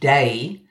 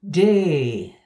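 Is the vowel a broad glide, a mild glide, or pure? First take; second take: mild glide; pure. First: The vowel glides from one sound to another. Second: The vowel stays long and pure without gliding. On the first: "No diphthong here changing from one thing to another, like my own day" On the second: "the purest vowel sound, a longer and more closed mouth version of my own eh in bed"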